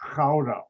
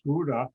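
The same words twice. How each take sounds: First: It begins with a throaty, raspy sound. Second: It begins with a hard G sound. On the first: This is how the Dutch say it. The speaker calls it right. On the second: This is how Americans say it. The speaker calls it wrong. "is not pronounced"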